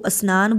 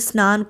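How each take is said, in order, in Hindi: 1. s ध्वनि से पहले एक अतिरिक्त स्वर जोड़ा जाता है। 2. शब्द सीधे s ध्वनि से शुरू होता है।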